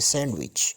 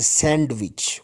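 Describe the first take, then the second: First: The D in the middle is silent. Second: The D in the middle is pronounced. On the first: The speaker calls it right. "D is silent here. we say sandwich" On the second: The speaker calls it wrong. "we don't say sandwich"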